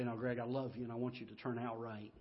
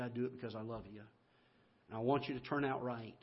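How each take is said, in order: First: Much softer, tender fatherly comfort; tender dad. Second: Softer, gentle fatherly reassurance; loving dad. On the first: Father comforts crying son after the whipping, tenderly. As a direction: hold him close and say it softly. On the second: Father tells son he punishes out of love, gently. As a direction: explain the whipping softly, out of love. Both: Retold or imitated.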